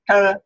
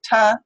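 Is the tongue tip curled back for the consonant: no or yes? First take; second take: yes; no. First: The t is made with the tongue curled back. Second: The t is made with a flat tongue tip.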